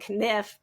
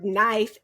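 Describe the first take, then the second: First: The word begins with a clearly sounded K. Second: The word begins without any K sound.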